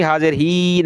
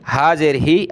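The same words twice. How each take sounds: First: ही dragged out on a long ee; overlong vowel. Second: ही kept short, without stretching; short vowel. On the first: Teacher showing students the mistake to avoid, long ही. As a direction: stretch the ई of ही too far. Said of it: "नहीं करेंगे". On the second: Teacher showing the correct unstretched syllable, short ही. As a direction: cut the ई of ही short. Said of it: "हा को नहीं खींचेंगे". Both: Shown as a demonstration.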